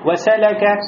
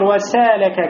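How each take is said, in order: First: All vowels are short and read quickly. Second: The vowel after the s is drawn out long. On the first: The speaker calls it right. "Никакой долготы нету. Значит, все читается быстро" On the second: The speaker calls it wrong. "как будто после син у вас появляется алиф"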